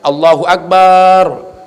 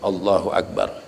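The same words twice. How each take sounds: First: The vowel after b is drawn out. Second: The vowel after b is kept short. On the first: The speaker calls it wrong. "Atau ba-nya dipanjangin" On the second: The speaker calls it right. "Jadi yang benar Allahu Akbar"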